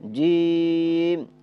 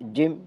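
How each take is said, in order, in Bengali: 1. স্বরধ্বনিটি চার আলিফ সময় ধরে লম্বা করে টানা হয়। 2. শব্দটি লম্বা না করে ছোট করে বলা হয়। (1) "এইভাবে চার আলিফ টানতে হবে" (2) "তাহলে হবে না"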